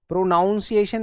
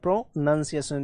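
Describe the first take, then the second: First: The second syllable sounds like 'noun'. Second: The second syllable sounds like 'nun'. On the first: The speaker calls it wrong. "प्रोनाउंसिएशन नहीं होता, नाउन नहीं करना है" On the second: The speaker calls it right. "प्रोनंसिएशन होता है"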